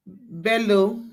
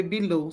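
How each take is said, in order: First: Bello with an open "eh" first, BEL-lo; name said as BEL-lo. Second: Below with an "ee" first, bee-LO; name said as bee-LO. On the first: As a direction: say Bello as BEL-lo, rising at the end. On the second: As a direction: say below as bee-LO, falling at the end. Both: Real, not acted. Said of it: "I don't know if it's Bello or below".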